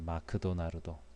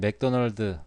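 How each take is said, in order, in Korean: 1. 추가 모음을 넣어서 발음해요, makudonarudo. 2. 세 음절로 발음해요, maekdoneoldeu. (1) "일본어 발음으로 ... 마크도나르도라고 합니다" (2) "맥도널드라는 발음이 일본어 발음으로 잘 되지 않아서"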